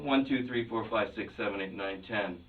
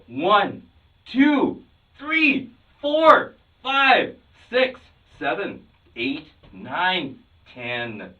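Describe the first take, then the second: First: The numbers are counted flatly, without emotion. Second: The numbers are counted with energy and passion. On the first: The speaker calls it wrong. "that's really lacking emotion and passion" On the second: The speaker calls it right. "you've got some emotion going there"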